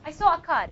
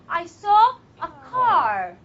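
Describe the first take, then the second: First: The r is a quick tap on the ridge. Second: The r is made with the tongue curled back. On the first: The speaker calls it wrong. "just like you say it in Arabic" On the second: The speaker calls it right. "next time you see a car, you say"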